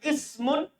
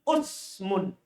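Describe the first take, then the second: First: The first vowel is i. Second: The first vowel is u. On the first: "Di kasrah"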